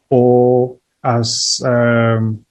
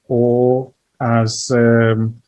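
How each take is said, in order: Both takes have the same delivery.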